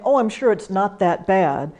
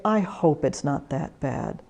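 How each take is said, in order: First: Breezy brush-off of "bad"; dismissive reassurance. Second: Much softer, lower "I hope"; sincere hope. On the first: Volunteer minimizing a caller's news, breezy. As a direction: wave the worry away. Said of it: "Rather than saying". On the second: Volunteer answering a worried caller, soft and sincere. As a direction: quietly offer real hope. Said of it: "you can say". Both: Shown as a demonstration.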